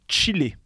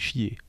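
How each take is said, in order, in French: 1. Le mot se prononce avec un son L. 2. Le mot se prononce sans son L. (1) "qu'il vaut mieux pas prononcer comme il s'écrit" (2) "C-H-I-2-L-E-R, ça fait chier"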